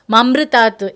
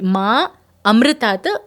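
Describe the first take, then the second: First: The 'ma' is short and run together. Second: The 'ma' is drawn out and long. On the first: The speaker calls it wrong. "if they don't pronounce the long ma, then the meaning becomes opposite" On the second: The speaker calls it right. "the long ma"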